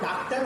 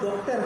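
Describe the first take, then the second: First: The first vowel is an open 'aa' sound. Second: The first vowel is a rounded 'o' sound. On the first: "Hindi में या तो डॉक्टर होगा" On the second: "या तो डॉक्टर होगा"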